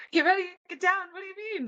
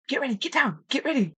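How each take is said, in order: First: Very high, bewildered repeat of the order; panicked echo. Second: High, pressing command to take cover; urgent hunting partner. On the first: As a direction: squeak it back in confused panic. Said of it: "panicking in my head". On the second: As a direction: hurry her down before the elk sees. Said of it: "and he goes". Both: Retold or imitated.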